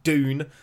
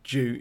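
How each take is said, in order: First: The word begins with a plain 'd' sound. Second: The word begins with a 'j' sound. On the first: "that would be D-O-O-N" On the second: "I don't want to say it with a J, so is it June?"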